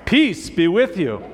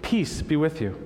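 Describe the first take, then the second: First: It is said loudly. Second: It is said at normal volume.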